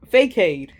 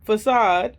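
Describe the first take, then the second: First: The word is said letter by letter, as spelled. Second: The word is said in its usual way.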